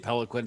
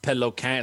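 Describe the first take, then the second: First: The name is said with an English accent. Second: The name is said with a French Canadian accent.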